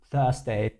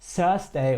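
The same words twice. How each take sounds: First: The first sound is an English th. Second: The first sound is an s-like sound. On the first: The speaker calls it right. "sondern wirklich Thursday, also perfekt" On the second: The speaker calls it wrong. "er hat jetzt nicht Thursday oder so gesagt, wie es sehr viele deutschsprachige Menschen meiner Meinung nach machen würden"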